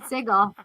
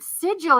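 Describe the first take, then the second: First: The g is a hard sound, as in go. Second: The g is a soft sound, as in gem. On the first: This is how the speaker learned it. "I'm saying it the hard" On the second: This is how other people say it. "they're saying it with the soft"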